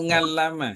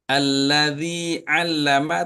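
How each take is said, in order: First: The word starts with an 'ng' sound. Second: The word starts with a throat sound.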